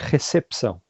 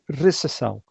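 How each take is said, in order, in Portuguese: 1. O p antes do ç é claramente pronunciado. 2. O p antes do ç é mudo. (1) "aqui no Brasil fala-se recepção. A gente tem um, um P que não é mudo" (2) "em Portugal fala-se recepção"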